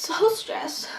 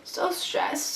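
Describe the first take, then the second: First: High, unvoiced whisper. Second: Breathy murmur. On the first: Whispering how stressed she was before the concert. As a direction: whisper it like a secret. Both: Real, not acted.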